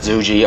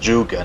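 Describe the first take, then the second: First: The word ends with a 'jee' sound. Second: The word ends with a 'guh' sound. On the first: The speaker calls it wrong. "not "zuji"" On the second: The speaker calls it right. "It pronounced "zhuge,""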